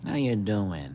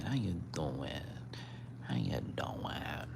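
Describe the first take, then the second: First: Said in the usual way. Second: Soft unvoiced whisper to the cat. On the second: Real, not acted. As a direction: breathe it out without voice. Repeated greeting fading to whisper.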